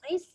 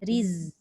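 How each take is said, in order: First: The word ends with a hissing s sound. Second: The word ends with a buzzing z sound. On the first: The speaker calls it wrong. "kalau ris takut nanti dia jadi macam sin kan?" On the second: The speaker calls it right. "Dia ada rokhwah. Rokhwah ni maksudnya dia melepaskan suara zai"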